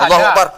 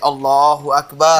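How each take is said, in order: First: It is said quickly and hurriedly. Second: It is said slowly and calmly.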